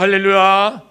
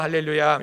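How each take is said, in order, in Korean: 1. 긴장되고 힘 있는 목소리로 말하고 있다. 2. 편안하고 일상적인 목소리로 말하고 있다. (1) "목소리에 힘이 들어가" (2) "평소에는"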